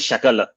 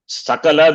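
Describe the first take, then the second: First: The word begins with an sh sound. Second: The word begins with a plain s sound. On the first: It means part. The speaker calls it wrong. "Shakala is part" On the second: It means total. The speaker calls it right. "Sakala is total"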